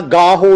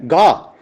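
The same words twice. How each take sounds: First: ਗਾਹੋ said "gaa-ho", final "o" sounded; wrong "ho" ending. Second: ਗਾ said as one syllable "gaa"; no "ho" ending. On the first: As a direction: add "ho" after the vowel in ਗਾਹੋ. (ਗਾਹੋ, ਅੰਤਲਾ "ਹੋ" ਬੋਲ ਕੇ) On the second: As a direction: end ਗਾ on the open "aa". (ਗਾ, "ਹੋ" ਬਿਨਾਂ) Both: Shown as a demonstration. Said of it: "ਗਾਹੋ ਨਹੀਂ ਹੈ".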